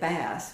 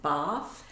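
First: The word is said with an Irish pronunciation. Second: The word is said with an English pronunciation. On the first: This is how people say it back home. "At home, we would say Bath, but that's not right" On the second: This is how locals say it. "I'm not exactly how you pronounce it here"

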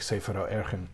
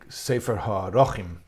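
First: The title is said in its everyday colloquial form. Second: The title is said in its formal grammatical form. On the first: The speaker calls it wrong. "but we all say Sefer Ha'erchin" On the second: The speaker calls it right. "It's probably Sefer Ha'erchin"

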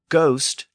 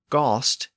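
First: The vowel is at its highest. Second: The vowel is in the middle. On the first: This is the early Modern English form. "And then it became ghost during the early Modern English period" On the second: This is the Middle English form. "Then it became ghost in Middle English"

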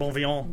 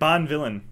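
First: The name is pronounced with a French pronunciation. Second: The name is pronounced like English 'Bond villain'. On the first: The speaker calls it right. "It's probably French, like Bonvillain" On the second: The speaker calls it wrong. "That looks like Bond villain"

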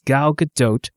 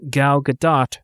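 First: Gadot ends with an 'oat' sound and a T. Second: Gadot ends with a short 'ot' sound. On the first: The speaker calls it right. "rhymes with tote" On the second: The speaker calls it wrong. "not Gal Gadot rhymes with spot"

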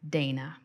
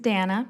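First: The name is said not rhyming with Hannah. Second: The name is said to rhyme with Hannah. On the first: The speaker calls it wrong. "not Dana" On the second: The speaker calls it right. "pronounced like Hannah"

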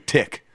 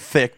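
First: The word begins with a plain 't' sound. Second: The word begins with a 'th' sound. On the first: This is the local pidgin way. "they say tick" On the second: This is the standard English way. "they don't say thick"

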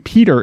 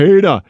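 First: The name ends with an r sound. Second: The name ends with an open 'ah' sound. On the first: "I don't say Peter anymore" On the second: "I can't help but to say PEDA"

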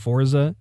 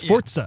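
First: The word is said with an English pronunciation. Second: The word is said with an Italian pronunciation. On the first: The speaker calls it wrong. "I'm used to saying Forza" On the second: The speaker calls it right. "It's actually Italian. It's Forza"

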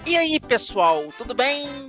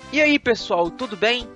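First: It is said in a put-on imitated voice. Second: It is said in his normal voice.

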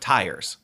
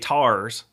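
First: The word is said in a standard accent. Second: The word is said in a Baltimore accent. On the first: "instead of tires" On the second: "But they say tars instead of tires"

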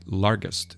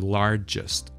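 First: The middle consonant is a hard g sound. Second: The middle consonant is a soft j sound. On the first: The speaker calls it wrong. "Sometimes students say largest, g" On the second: The speaker calls it right. "it's supposed to be pronounced as j"

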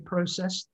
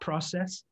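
First: The first vowel is a rounded 'oh' sound. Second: The first vowel is an open 'ah' sound. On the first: This is the speaker's own English way of saying it. "here's my English accent... I do say process" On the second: This is the way the speaker does not say it. "not process"

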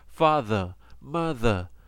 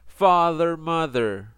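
First: It is said with a British accent. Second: It is said with an American accent. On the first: "If you want a British accent" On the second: "Remember, I have American accent"

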